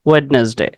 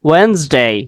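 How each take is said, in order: First: Every letter is sounded, including the middle d. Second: The middle d is silent, giving two syllables. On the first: The speaker calls it wrong. "ওয়েডনেসডে বলার ক্ষেত্রে আমরা এভাবেই বলি" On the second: The speaker calls it right. "সঠিক উচ্চারণ হচ্ছে ওয়েন্সডে"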